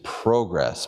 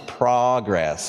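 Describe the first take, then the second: First: It is said with a Canadian pronunciation. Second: It is said with an American pronunciation. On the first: "I'll do the Canadian pronunciation" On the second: "for you Americans online, it's progress"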